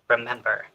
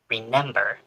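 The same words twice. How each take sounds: First: The word is said without an added N sound. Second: The word is said with an added N sound. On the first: The speaker calls it right. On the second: The speaker calls it wrong.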